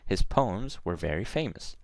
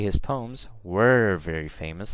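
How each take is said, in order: First: The word 'were' is unstressed. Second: The word 'were' is stressed. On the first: The speaker calls it right. "Just just pass through it" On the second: The speaker calls it wrong. "I don't say"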